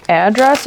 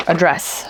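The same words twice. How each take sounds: First: "address" with the stress on AD; first-syllable stress. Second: "address" with the stress on DRESS; second-syllable stress. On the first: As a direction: say "address" as AD-dress, with a clear "a" as in "add". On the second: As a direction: say "address" as uh-DRESS, with a weak first vowel. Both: Shown as a demonstration. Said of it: "you could say address or address".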